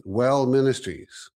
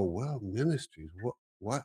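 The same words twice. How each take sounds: First: Slow, solemn announcement; God's voice. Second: Softer, bewildered question; puzzled waking. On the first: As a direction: lay down each word like a divine message. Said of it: "and he goes". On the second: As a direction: mumble it half-awake and confused. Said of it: "I wake up and go". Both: Retold or imitated.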